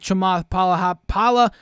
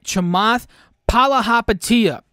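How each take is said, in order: First: The name is said quickly and loosely. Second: The name is said slowly and carefully. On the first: The speaker calls it wrong. "I can't end this video without saying his name right" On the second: The speaker calls it right. "That's how you say it"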